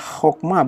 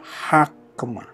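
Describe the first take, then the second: First: The first vowel is an o sound. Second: The first vowel is an a sound. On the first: The speaker calls it right. "dibaca adalah hokma" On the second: The speaker calls it wrong. "bukan hakma"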